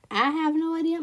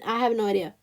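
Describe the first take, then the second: First: "I have no idea" with a southern twang; southern accent. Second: Said in the usual way. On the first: Real, not acted. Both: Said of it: "My southern accent just came out".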